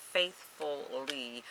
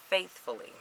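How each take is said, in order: First: Faithfully drawn out slowly and softly, each syllable leaned on; slow emphatic repeat. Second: Said in the usual way. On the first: Real, not acted. Vlogger insisting to viewers she kept up cardio, slow stressed repeat. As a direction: stretch faithfully out to make the point. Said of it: "faithfully, okay?".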